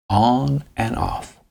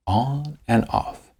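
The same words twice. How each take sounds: The two takes are said the same way.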